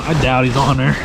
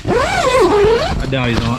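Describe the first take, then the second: First: Said in the usual way. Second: Much higher, slow drawn-out sing-song; mock doubtful. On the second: Real, not acted. Angler doubting the fish is hooked, teasing. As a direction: stretch it out in a teasing high voice.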